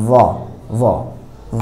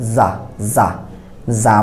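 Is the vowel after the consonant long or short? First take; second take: short; long. First: The vowel is short, without the 'aa' sound. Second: The vowel is a long open 'aa' sound. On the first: The speaker calls it right. "আমরা কি বলি জ জ জ" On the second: The speaker calls it wrong. "আকারের উচ্চারণ যদি জয়ের উপর দেওয়া হয় তাহলে হয় জা জা জা আমরা বলি না"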